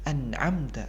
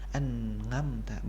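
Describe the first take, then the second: First: The middle consonant is a tight throat sound. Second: The middle consonant is a nasal 'ng' sound. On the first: The speaker calls it right. "harus jelas bahasa itu bahwasanya itu adalah huruf ain" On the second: The speaker calls it wrong. "bukan seperti itu"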